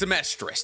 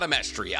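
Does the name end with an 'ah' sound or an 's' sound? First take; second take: s sound; ah sound. First: The name ends with an 's' sound. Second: The name ends with an 'ah' sound. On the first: The speaker calls it right. "Just realize it's Amestris" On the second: The speaker calls it wrong. "not Amestria. I've been saying it wrong this entire time"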